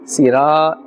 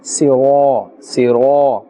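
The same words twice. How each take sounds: First: "Sira" with a thin light ra; wrong sira. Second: "sira" with a heavy rounded ra, almost siro; full-mouth sira. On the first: Teacher shows students the incorrect thin sira. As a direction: say "Sira" thin, no full mouth. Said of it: "Sira is incorrect". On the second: Teacher models the full-mouthed sira for students. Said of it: "but with a full mouth". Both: Shown as a demonstration.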